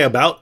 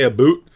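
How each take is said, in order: First: "about" with a clear ow sound, said the standard way; proper about. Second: Mild Canadian "a boot" with a long oo; lightly imitated Canadian "a boot" for about. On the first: Shown as a demonstration. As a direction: say "about" plainly, ow as in cow. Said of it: "They can't say". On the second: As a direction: say "a boot" like a Canadian, boot rhyming with hoot. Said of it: "they say".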